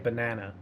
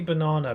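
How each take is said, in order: First: It is said in an American accent. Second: It is said in a British accent. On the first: "the American pronunciation of banana ... but you say banana" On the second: "we say banana"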